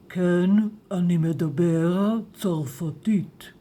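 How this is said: It is said in a deep, manly voice.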